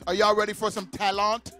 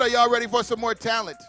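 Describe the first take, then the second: First: It is said in a French accent. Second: It is said in his plain accent.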